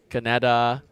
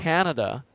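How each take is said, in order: First: The stress follows a Singaporean English pattern. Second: The stress follows a Western English pattern. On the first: The speaker calls it wrong. "the em emphasis on certain words is different from Singapore to the West. So, like, I would say things like" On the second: The speaker calls it right.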